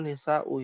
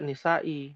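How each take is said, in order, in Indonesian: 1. Kata ini berakhir dengan vokal u. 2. Kata ini berakhir dengan vokal i. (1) "yang betul nisau ya" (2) "Karena tadi ada yang baca nisai"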